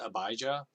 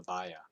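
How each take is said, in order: First: The name is said with a 'j' sound. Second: The name is said without a 'j' sound. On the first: This is the common pronunciation. The speaker calls it wrong. "a lot of people pronounce it Abijah" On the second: This is the actual pronunciation. The speaker calls it right. "I think it's actually pronounced Abiah"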